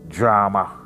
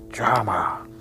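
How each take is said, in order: First: It is said in a normal voice. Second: It is said in a stage whisper.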